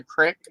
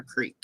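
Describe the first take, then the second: First: "crick" with a short i, for creek; regional pronunciation. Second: "creek" with a long ee; standard pronunciation. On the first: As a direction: make "crick" rhyme with brick. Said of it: "some places it's a crick". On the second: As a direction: make "creek" rhyme with week. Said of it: "or a creek". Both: Shown as a demonstration.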